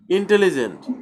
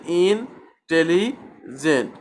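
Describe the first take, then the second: First: Said in the usual way. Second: "intelligent" slowly in three separate steps, ইন, tele, gent. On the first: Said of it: "উচ্চারণ করতে গেলে তিনবার". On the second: Shown as a demonstration. Teacher counts out the parts, "intelligent" slowly in three separated chunks. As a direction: break "intelligent" into ইন, tele and gent with clear pauses. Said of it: "তিনবার আমাকে ধাপে ধাপে উচ্চারণ করতে".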